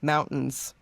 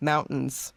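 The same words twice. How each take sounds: First: The middle T sound is dropped out. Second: The same.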